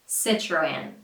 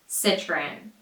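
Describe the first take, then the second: Both takes have the same delivery.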